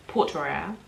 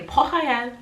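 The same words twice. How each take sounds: First: Said in the usual way. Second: Port Royal with a throaty French R; French pronunciation. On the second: Shown as a demonstration. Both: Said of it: "is how we would say it".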